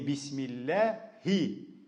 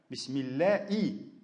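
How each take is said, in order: First: The h sound before the last vowel is pronounced. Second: The h sound before the last vowel is dropped. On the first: The speaker calls it right. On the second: The speaker calls it wrong.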